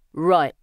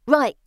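First: Loud, curt Cockney; Cockney accent. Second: Put-on high, loud street boy; boy's answer. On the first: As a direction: take charge in Cockney. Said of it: "using a Cockney accent". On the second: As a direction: pipe up eagerly like a boy. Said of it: "the boy answers". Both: A narrator's reading.

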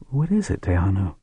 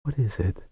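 First: Rising worried ask, higher; higher anxious question. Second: Soft worried murmur. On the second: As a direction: ask it under your breath. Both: Acted. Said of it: "murmured to her daughter".

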